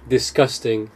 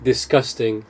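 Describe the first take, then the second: First: The consonant after the s sounds like k. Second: The same.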